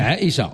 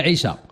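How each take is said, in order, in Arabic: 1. يُنطق الاسم بالفصحى. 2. يُنطق الاسم بالعامية. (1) "على السيدة عائشة تنقولوا لها عائشة" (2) "وملي كنجيو نعيطوا لديالنا عائشة"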